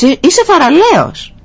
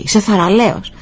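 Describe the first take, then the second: First: High, ringing father's call; encouraging shout. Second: Imitated echo, less forceful; echo coming back. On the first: Retold or imitated. Father shouts praise into the mountains for his son, ringing call. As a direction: call it out across the hills. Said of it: "Φώναξε πίσω ο μπαμπάς". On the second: Mountains return the father's praise, softened echo. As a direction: repeat it back like the hills answering. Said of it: "η φωνή ξανακούστηκε".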